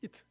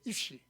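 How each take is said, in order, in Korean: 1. 이 단어는 t 소리로 끝나요. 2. 이 단어는 sh 소리로 끝나요. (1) "갈릴리는 이 쉬를 트로 발음하는 거예요" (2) "히브리어로 사람이라는 말이 이슈인데"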